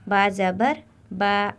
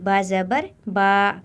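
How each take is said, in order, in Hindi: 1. स्वर छोटा है और शांति से बोला गया है। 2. स्वर को लंबा खींचकर बोला गया है। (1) "आराम से पढ़ना है" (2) "ऐसे नहीं ... खींचना नहीं"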